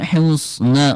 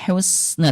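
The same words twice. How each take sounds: First: The s sound is heavy and thick. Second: The s sound is light and thin. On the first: The speaker calls it wrong. "bukan husna" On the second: The speaker calls it right. "tapi husna tipis ya"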